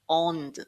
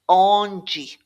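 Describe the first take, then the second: First: The final d trails off with a slight glide. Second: The final d is released harder with a vowel. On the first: "You've got this slight glide off the D" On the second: "The Brazilian sound will be slightly harder than this"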